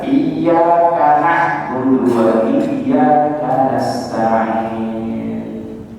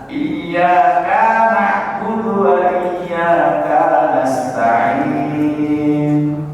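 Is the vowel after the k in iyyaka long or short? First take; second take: short; long. First: The vowel after the k is kept short. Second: The vowel after the k is drawn out. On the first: The speaker calls it right. "Yang benar" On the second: The speaker calls it wrong. "Dipanjangin K-nya"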